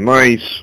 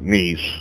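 First: The name is said in a non-French way. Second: The name is said the local French way.

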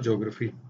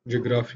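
First: The start is one syllable, 'jyo'. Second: The start is two syllables, 'jee-o'. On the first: "ज्योग्राफी है actual" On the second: "जियोग्राफी और ज्योग्राफी"

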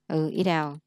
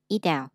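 First: The t between the words sounds like t. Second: The t between the words sounds like d.

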